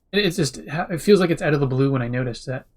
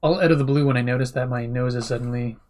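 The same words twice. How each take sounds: First: Sipping hot tea. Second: Said in the usual way. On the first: Real, not acted. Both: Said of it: "Sorry, sipping tea".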